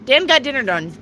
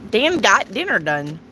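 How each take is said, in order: First: Quick tongue twister run; said fast. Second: Said in the usual way. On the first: Shown as a demonstration. Rushes the tongue twister fast for viewers. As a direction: rattle off "Dan got dinner done" at speed. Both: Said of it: "Say that fast".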